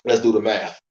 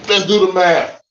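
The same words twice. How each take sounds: First: Said in the usual way. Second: Louder announcement of the task; announcing. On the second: Shown as a demonstration. Rallying viewers to work out troop numbers, an announcing call. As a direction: call it out to get going.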